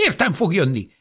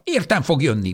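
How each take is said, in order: First: High, loud cry stressing Értem; desperate old woman shouting Értem fog jönni; angry shout. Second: High, loud insistent cry on Értem; stubborn old woman shouting Értem; angry shout. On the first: Old woman fighting off nurse. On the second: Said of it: "kiáltotta". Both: Acted.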